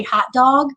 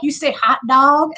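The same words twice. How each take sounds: First: "hot dog" in a Chicago accent. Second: Imitating people poking fun at "hot dog"; teasing disbelief. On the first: Shown as a demonstration. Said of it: "people would make fun when I would say". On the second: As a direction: question "hot dog" back, rising in mock disbelief. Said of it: "people would make fun".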